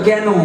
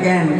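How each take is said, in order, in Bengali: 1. বদ্ধ স্বরধ্বনি দিয়ে বলা, যেমন 'ken'। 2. খোলা স্বরধ্বনি দিয়ে বলা, যেমন 'kan'। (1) "কলকাতা থেকে গেলে বলে কেন" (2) "আপনারা এদিকে বলে ক্যান"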